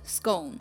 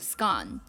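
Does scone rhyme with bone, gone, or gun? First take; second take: bone; gone. First: The vowel rhymes with bone. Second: The vowel rhymes with gone. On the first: "有我们习惯的bone scone" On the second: "然后有这上面说rhymes with gone 的scone"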